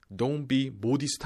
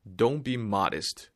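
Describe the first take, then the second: First: "modest" with a rounded O, as "bodist"; wrong pronunciation. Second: "modest" with an open "ah", MAH-dist; slow model of "modest" as "MAH-dest"; correct pronunciation. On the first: Teacher showing learners the mistake to avoid, wrong pronunciation of "modest". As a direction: say "modest" the Korean-spelling way, "mo-di-seu-t". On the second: Teacher correcting learners after the wrong take, correct pronunciation of "modest". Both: Shown as a demonstration. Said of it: "Don't be modest 아니죠".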